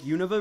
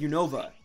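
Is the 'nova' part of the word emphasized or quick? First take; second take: quick; emphasized. First: It is said fast, with little weight on 'nova'. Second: It is said with strong emphasis on 'nova'. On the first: This is how most other people say it. "they pronounce it faster" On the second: This is the speaker's own habitual way. "I really put emphasis on the Nova part of it"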